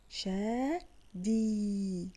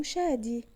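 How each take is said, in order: First: "شادي" very slowly, long shaa, pause, long dii; slow sounding-out of "شادي", both vowels held; syllable by syllable. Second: Said in the usual way. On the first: Shown as a demonstration. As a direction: break "شادي" into two stretched parts. Teacher splits name into syllables.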